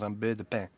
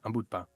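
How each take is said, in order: First: It is said in a southern French accent. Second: It is said in the speaker's own French accent.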